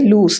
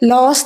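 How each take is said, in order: First: The vowel sounds like 'oo'. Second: The vowel sounds like 'oh'. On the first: The speaker calls it right. "ലൂസ് എന്ന് കേട്ടോ" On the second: The speaker calls it wrong. "ലോസ് എന്ന് പറയരുത്"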